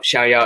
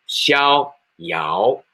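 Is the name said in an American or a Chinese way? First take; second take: American; Chinese. First: It is said flatly, without Chinese tones. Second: It is said with Chinese tones on each syllable. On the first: "xiao yao is more American way or English ways" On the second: "For Chinese, we have pronunciation, intonation. We say xiao yao"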